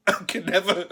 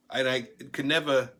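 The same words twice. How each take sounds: First: Can't get it out for laughing. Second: Said in the usual way. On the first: Real, not acted. Telling a Trump story, he laughs through the words. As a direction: repeat it while a laugh breaks through. Repeats phrase, breaking into laughter.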